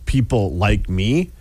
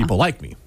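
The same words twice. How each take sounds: First: It is said slowly and separately. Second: It is said quickly and smoothly.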